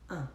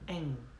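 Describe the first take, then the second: First: The nasal vowel ends cleanly, without a g sound. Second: The nasal vowel ends with a g-like sound. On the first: "on va prononcer le, le mot un" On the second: "à Marseille, c'est comme si on rajoutait la lettre G à la fin"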